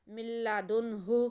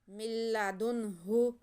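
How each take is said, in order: Both takes have the same delivery.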